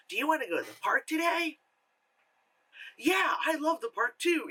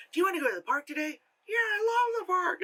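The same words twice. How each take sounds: First: Put-on two kid voices. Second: Fast, high squeaky puppet voices; ventriloquist dummy voices. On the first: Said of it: "So it's not just like". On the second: Retold or imitated. Vlogger mocking the girl's ventriloquism with squeaky puppet voices. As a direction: rattle it off like a ventriloquist act. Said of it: "But instead it's like".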